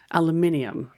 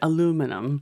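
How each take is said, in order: First: It is said the British way, with five syllables. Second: It is said the American way, with four syllables. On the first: "British English" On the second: "Americans will say aluminum"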